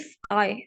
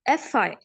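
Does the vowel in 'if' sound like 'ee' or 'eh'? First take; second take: ee; eh. First: The vowel in 'if' sounds like 'ee'. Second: The vowel in 'if' sounds like 'eh'. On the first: The speaker calls it wrong. "it's not if I" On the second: The speaker calls it right. "I को बिल्कुल E करके sound ना करें, A करके जरा सा करें"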